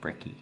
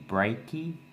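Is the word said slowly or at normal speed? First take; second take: normal speed; slowly. First: The word is said quickly and casually. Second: The word is said slowly and carefully. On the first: "We say brekkie" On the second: "if you say it really slow"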